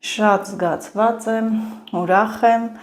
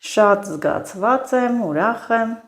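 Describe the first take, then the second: Both takes have the same delivery.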